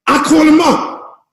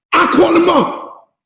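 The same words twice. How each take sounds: The two takes are said the same way.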